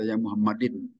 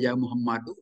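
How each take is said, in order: First: The name ends with an in sound. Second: The name ends with a u vowel. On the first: The speaker calls it wrong. "Tidak boleh" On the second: The speaker calls it right. "harus dibaca Muhammadu"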